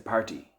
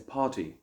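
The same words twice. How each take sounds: First: It is said in an Irish accent. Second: It is said in a British accent. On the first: "In Ireland, they'll say party" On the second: "In the United Kingdom, they might say party"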